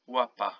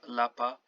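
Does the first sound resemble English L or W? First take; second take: W; L. First: The first sound is like English W. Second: The first sound is like English L. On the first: The speaker calls it right. "pronounced like W in English" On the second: The speaker calls it wrong. "not lapa"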